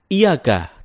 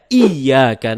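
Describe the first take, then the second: First: The y sound is short and single. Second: The y sound is held and doubled. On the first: The speaker calls it wrong. "tidak menekan huruf ya" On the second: The speaker calls it right. "dengan menekan huruf ya"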